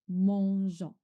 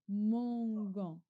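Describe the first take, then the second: First: The consonant is a soft zh sound. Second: The consonant is a hard g sound. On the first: The spelling includes the added E. The speaker calls it right. "Je rajoute E" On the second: The spelling lacks the added E. The speaker calls it wrong. "sans le E, je lis, je lis mangon"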